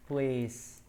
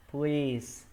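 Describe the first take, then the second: No difference in how they are said.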